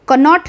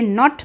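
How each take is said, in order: First: A k sound is pronounced before the n. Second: The word starts directly with the n sound. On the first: The speaker calls it wrong. "कनॉट नहीं बोलते" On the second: The speaker calls it right. "नॉट बोलते हैं"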